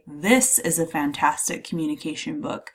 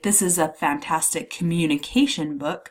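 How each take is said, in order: First: The stress falls on the word this. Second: The stress falls on the word communication. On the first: This one book in particular is meant. "I'm really emphasizing this one book in particular" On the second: The type of book is highlighted. "I'm emphasizing the type of book it is"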